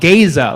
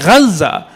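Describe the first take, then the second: First: It is said with an American pronunciation. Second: It is said with an Arabic pronunciation. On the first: The speaker calls it wrong. "I heard somebody call it Gaza" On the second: The speaker calls it right.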